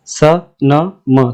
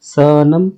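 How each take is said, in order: First: "स, न, म" as three separate sounds with gaps; letters sounded separately. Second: "सनम" blended as one word; sounds joined up. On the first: Teacher sounding out "स, न, म" before joining, letters separate. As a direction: sound out "स", "न", "म" one by one. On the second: Teacher showing how "सनम" reads when joined, blended. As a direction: run the three sounds together into "सनम". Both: Shown as a demonstration. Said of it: "तीनों को जोड़ के पढ़ो साथ में".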